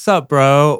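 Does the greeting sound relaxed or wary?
relaxed. It sounds like a relaxed, friendly greeting. Welcome, glad you're here. "recognition and welcome"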